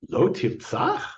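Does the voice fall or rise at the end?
rise. It is said as a question, rising.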